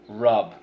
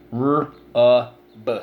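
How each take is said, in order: First: Said in the usual way. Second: R-U-B as three separate sounds, drawn apart; sounded out. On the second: Shown as a demonstration. Teacher breaking the word into sounds for pupils, sounded out. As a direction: sound out "R-U-B" one sound at a time.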